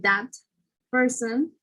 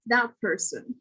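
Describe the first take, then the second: First: Said in the usual way. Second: "that person" said as thap-person; T becomes P. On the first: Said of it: "instead of saying". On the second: Shown as a demonstration. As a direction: turn the final T of "that" into a P. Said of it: "will become a p sound".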